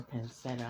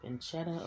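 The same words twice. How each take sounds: First: "pancetta" said pan-SET-a; soft-c pronunciation. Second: "Pancetta" said pan-CHET-a; ch pronunciation. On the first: Cook unsure how to say the ingredient, trying "pancetta" with an s. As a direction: say "pancetta" with an s in the middle, no ch. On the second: Cook unsure how to say the ingredient, trying "Pancetta" with a ch. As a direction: say "Pancetta" with a ch in the middle. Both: Shown as a demonstration. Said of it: "how do you say it?".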